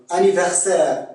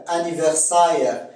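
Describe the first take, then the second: First: Said in the usual way. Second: "anniversaire" ending in sa-ère; Québécois diphthong. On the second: Shown as a demonstration. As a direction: glide the end of "anniversaire" into ah-eh. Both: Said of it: "c'est A E en accent québécois".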